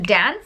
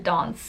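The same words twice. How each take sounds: First: It is said in an American accent. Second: It is said in a South African accent. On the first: This is the version the children understand. "then I'll change to dance" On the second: This is the speaker's own natural way of speaking. "I'll go back to dance so that they can see that that's how I speak"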